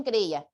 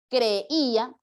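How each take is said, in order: First: Said in the usual way. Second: "Creía" split slowly, with the "í" held; sounded out. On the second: Shown as a demonstration. Teacher confirming an answer, "Creía" drawn out vowel by vowel. Sounding out hiatus, then normal word.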